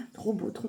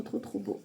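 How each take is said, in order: First: Said in the usual way. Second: Whispered awe. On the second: Real, not acted. Admiring the cards, then whispers.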